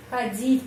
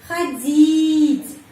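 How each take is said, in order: First: Said in the usual way. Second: Ходить with the last syllable raised and loud, о said as а; stress on ходить. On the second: Shown as a demonstration. Teacher contrasting the stressed ending of ходить. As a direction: hit the end of ходить. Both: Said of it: "Penekanannya di sini".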